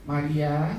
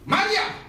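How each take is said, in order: First: The name is called softly and gently. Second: The name is called firmly and sharply.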